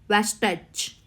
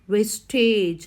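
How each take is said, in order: First: The vowel before the final sound is short. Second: The vowel before the final sound is long. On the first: The speaker calls it wrong. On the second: The speaker calls it right. "before ge there is a long vowel"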